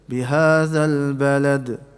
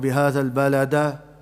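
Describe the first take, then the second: First: The final d has a slight echoing bounce. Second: The final d is followed by a full vowel. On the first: The speaker calls it right. "No, in the middle" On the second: The speaker calls it wrong. "we won't recite it"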